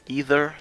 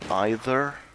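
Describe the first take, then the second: First: It is said with a non-British pronunciation. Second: It is said with a British pronunciation.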